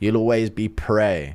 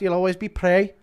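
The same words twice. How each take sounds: First: It is said in the speaker's own voice. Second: It is said in an imitated put-on voice.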